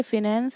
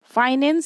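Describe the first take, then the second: First: फाइनेंस reduced to 'fi-nens'; shortened pronunciation. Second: फाइनेंस said with a full 'faai' opening; full pronunciation. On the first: Teacher showing how stress changes a word, फाइनेंस as 'fi-nens'. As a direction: say फाइनेंस with a short 'fi' opening. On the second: Teacher giving the original form for a stress example, फाइनेंस as 'faai-nens'. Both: Shown as a demonstration. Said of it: "जैसे".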